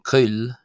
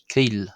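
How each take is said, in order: First: The vowel is a rounded, non-'ee' sound. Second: The vowel is a long 'ee' sound. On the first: This is the Ulster dialect form. "rather than coil" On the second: This is the form in most other dialects. "you will hear the word for slender pronounced as keel"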